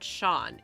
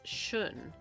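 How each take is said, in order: First: The name rhymes with 'dawn'. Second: The name has a short 'oo' vowel. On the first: The speaker calls it wrong. "It's not Sean" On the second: The speaker calls it right. "it's Shun"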